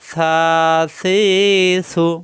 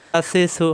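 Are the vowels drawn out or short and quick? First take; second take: drawn out; short. First: The vowels are drawn out slowly. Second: The vowels are short and quick. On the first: The speaker calls it wrong. "এভাবে টেনে পড়া যাবে না" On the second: The speaker calls it right. "হারকাতের উচ্চারণ তাড়াতাড়ি"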